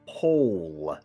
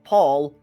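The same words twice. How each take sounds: First: The vowel is an oh sound, as in pole. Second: The vowel is an aw sound, as in Paul. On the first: The speaker calls it right. "North Pole and South Pole" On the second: The speaker calls it wrong. "Not Paul"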